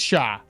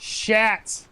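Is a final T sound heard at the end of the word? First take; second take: no; yes. First: The word ends without any T sound. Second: The word ends with an audible T sound. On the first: The speaker calls it right. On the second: The speaker calls it wrong.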